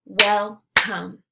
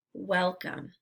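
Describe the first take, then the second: First: "Welcome" as two separate beats, Wel – come; syllables split apart. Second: Said in the usual way. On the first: Shown as a demonstration. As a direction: say "Welcome" syllable by syllable, pausing between. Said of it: "give you the parts of the syllable". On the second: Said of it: "blend it together".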